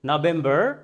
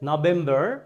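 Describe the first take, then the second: First: It is said in an American accent. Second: It is said in an American accent.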